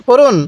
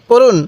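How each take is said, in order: The two takes are said the same way.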